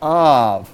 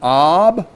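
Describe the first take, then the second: First: The word ends with a v sound. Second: The word ends with a b sound. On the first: "the B and the V sound letters" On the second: "the B and the V sound letters"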